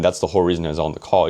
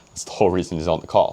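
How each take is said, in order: First: It is said plainly, without any laugh. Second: It is said with a short fake laugh. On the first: "instead of saying" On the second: "you're adding that fake laugh"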